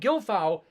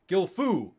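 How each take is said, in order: First: The last syllable does not sound like 'foo'. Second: The last syllable sounds like 'foo'. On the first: The speaker calls it wrong. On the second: The speaker calls it right.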